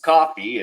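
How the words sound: It is said with an American English accent. "as an American myself, you know, we'll just say"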